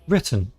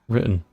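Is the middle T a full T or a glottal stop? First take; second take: full T; glottal stop. First: The middle T is clearly pronounced. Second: The middle T is replaced by a glottal stop. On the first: "If you pronounce it correctly" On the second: "natively, people say written. We miss the T's"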